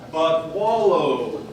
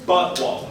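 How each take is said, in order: First: The stress falls on the second word. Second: The stress falls on the first word. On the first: The speaker calls it right. "draw the emphasis on wallow" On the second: The speaker calls it wrong. "not on but"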